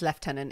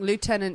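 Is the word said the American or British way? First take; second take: British; American. First: It is said the British way. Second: It is said the American way.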